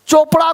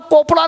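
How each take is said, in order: First: The word begins with a 'ch' sound. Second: The word begins with a 'k' sound. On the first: The speaker calls it right. "चोपड़ा को कोपड़ा नहीं पढ़ेंगे" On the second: The speaker calls it wrong. "कोपड़ा नहीं पढ़ेंगे"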